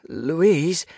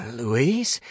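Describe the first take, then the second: First: High, loud call falling at the end; raised-voice cry of the name; louder call. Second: Higher, rising question; questioning, pitch lifting at the end; tentative call. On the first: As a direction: call out urgently for your friend. Calling again, louder, for friend. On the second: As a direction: call out to see if the friend is there. Calling for ghostly friend. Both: A narrator's reading.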